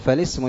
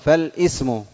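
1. تسقط الهمزة وتتصل الكلمات ببعضها. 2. تُنطق همزة القطع قبل 'ism'. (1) "الهمزة وصل، تقول فالاسم يعرف" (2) "لا تقول فالاسم"

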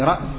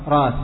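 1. في الكلمة همزة بعد الحرف الأول. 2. تُستبدل الهمزة بألف طويلة. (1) "وفي رأس" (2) "يجوز أن تقلب حرفا من جنس حركة ما قبلها"

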